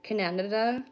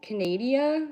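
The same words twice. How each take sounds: First: "Canada" said as kuh-NAN-uh-duh with a rise; mock mispronunciation. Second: "Canada" said as kuh-NAY-dee-uh; higher stressed NAY in "Canada", ending dee-uh; mock mispronunciation. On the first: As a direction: stretch "Canada" to four syllables, stressing NAN. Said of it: "What's the other one?". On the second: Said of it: "they say, what is it?".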